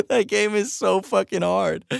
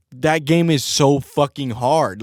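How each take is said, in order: First: Higher, slower. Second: Said in the usual way. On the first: Shown as a demonstration. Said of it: "repeats it higher and slower".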